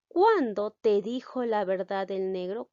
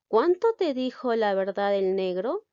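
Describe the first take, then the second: First: "¿Cuándo te dijo la verdad el negro?" read with "Cuándo" as kwan-do, the right version; corrected word read out. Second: "Cuánto" said with a clear t, kwan-to; "¿Cuánto te dijo la verdad el negro?" read with "Cuánto" as kwan-to, the mistaken version; "Cuánto" with a plain t sound, the error shown first; wrong word read out. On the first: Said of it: "ya la palabra debe ser cuándo". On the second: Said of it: "Aquí debe decir cuándo". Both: Shown as a demonstration.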